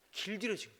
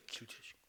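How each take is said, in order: First: Said in the usual way. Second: Whispered echo. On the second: Real, not acted. Repeats word, second whispered.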